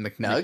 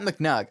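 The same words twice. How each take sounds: First: The voice rises at the end of the name. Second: The voice falls at the end of the name. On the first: The speaker calls it right. "you have to say it with the upward inflection" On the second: The speaker calls it wrong. "Like I'm not McNug"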